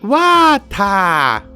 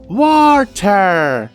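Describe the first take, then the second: First: The R sound is dropped. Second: The R sound is pronounced. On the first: "You pronounce it like water" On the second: "You're adding an extra R in there"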